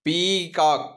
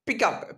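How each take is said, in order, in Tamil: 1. முதல் உயிரெழுத்து நீண்ட ee ஒலி. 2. முதல் உயிரெழுத்து குறுகிய i ஒலி. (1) "இது பீகாக்" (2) "பிகாக் கிடையாது"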